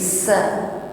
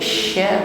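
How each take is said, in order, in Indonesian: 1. Konsonannya bunyi s yang sempit dan biasa. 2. Konsonannya bunyi sh yang melebar dan berhembus. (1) "bukan sekedar bikulli sa" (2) "tekanan nafasnya nampak lebih jelas daripada huruf sin"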